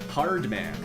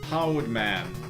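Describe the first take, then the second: First: The R sound in 'hard' is clearly pronounced. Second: The R sound in 'hard' is missing. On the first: The speaker calls it right. "And then one day I was just able to say it" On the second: The speaker calls it wrong. "my big one for years until I was like five years old was R's"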